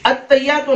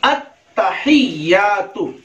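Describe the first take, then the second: First: "अत्तहियातु" said as "at-tayyatu", no h; quick "अत्तहियातु" with the middle h missing; common mispronunciation. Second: "अत्तहियातु" slow, with a clear h and long vowels; correct recitation. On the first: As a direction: skip the ह in "अत्तहियातु". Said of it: "हालांकि बिल्कुल गलत है". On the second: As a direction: stretch out "अत्तहियातु" as "at-ta-hiy-yaa-tu". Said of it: "नहीं". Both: Shown as a demonstration.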